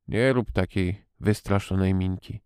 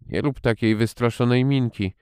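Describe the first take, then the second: First: Tired voice. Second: Called out. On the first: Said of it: "rzekł głosem zmęczonym". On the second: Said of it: "zawołał znowu". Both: A narrator's reading.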